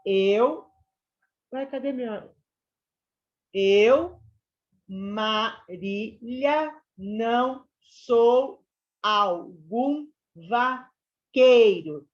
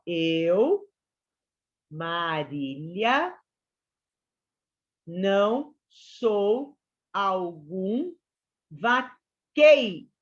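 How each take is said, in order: First: Very slow, loud, stressed syllables; syllable-counting recitation. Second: Each syllable drawn out slowly; slow scansion reading. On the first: Teacher recites the verse again, syllable by syllable. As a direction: count out every syllable of "Eu, Marília, não sou algum vaqueiro" loudly. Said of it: "Deu dez, ok?". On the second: Teacher reads the verse slowly for students. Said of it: "A última sílaba aqui, ela não é contada". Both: Shown as a demonstration.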